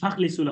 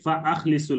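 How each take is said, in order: First: The words run together without a glottal stop. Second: A glottal stop separates fa from akhlisu. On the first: Set them free. The speaker calls it wrong. "ভুল করছেন" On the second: Pray sincerely. The speaker calls it right. "হামজা কাতঈ উচ্চারণ করতে হবে"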